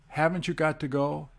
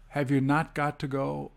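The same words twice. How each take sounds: First: Said in the usual way. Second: "not" as the strong word; emphasis on NOT. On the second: Shown as a demonstration. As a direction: stress "not" after "you". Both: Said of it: "can also be emphasized by splitting".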